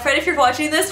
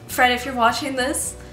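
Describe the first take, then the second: First: It is said in a playful, joking tone. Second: It is said in a serious tone.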